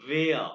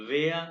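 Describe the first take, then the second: Both takes have the same delivery.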